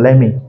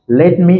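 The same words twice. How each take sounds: First: The words are squeezed into one reduced word. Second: Both words are said fully and separately.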